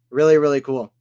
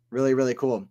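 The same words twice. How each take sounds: First: Louder, leaning on the first "really"; emphatic praise. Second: Said in the usual way. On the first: Real, not acted. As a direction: push the "really, really" out with enthusiasm. Repeated praise, two takes.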